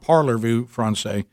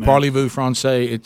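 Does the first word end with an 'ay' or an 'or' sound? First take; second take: or; ay. First: The first word ends like English 'parlor'. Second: The first word ends with an 'ay' sound. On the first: The speaker calls it wrong. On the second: The speaker calls it right.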